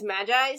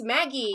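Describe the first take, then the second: First: The word is said like the word magi. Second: The word is said like the name Maggie. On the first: This is the habitual pronunciation. The speaker calls it wrong. "I've always pronounced that word as as Magi" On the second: This is the supposedly correct pronunciation. The speaker calls it right. "apparently it's Maggie"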